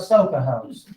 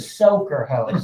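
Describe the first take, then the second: First: The first word ends without an R sound. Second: The first word ends with an R sound. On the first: The speaker calls it wrong. "it's not called a soka hose" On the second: The speaker calls it right. "It's a soaker hose. S O A K E R"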